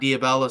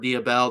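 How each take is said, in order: First: The name ends with an extra 'a' vowel. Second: The name ends on a closed 'bell' sound. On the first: The speaker calls it wrong. "not Diabella" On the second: The speaker calls it right. "for Diabell"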